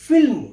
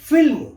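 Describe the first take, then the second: No difference in how they are said.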